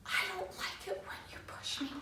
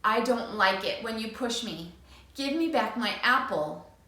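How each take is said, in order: First: Tiny, high whisper; scared whisper. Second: Clear, steady big voice; firm. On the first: Frightened boy whispering his practice line. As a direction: barely dare to say it. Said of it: "whispers in a little tiny voice". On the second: Boy practising his firm big voice. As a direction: stand your ground calmly. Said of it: "he firmly says". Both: Acted.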